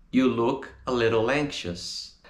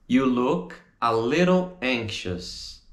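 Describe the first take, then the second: First: "little anxious" run together as one; linked up. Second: "You look, a little, anxious" in slow chunks; slow, separated model. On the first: Teacher repeats the answer with words linked. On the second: Teacher models the answer, slow separated chunks. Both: Shown as a demonstration.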